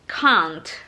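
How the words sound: The vowel is a long, back ah sound. "British ... mengucapkan can't itu can't"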